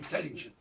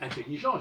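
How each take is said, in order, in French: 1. Le mot se prononce à l'anglaise. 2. Le mot se prononce à la française. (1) "j'ai dit intelligent" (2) "je n'ai pas dit intelligent"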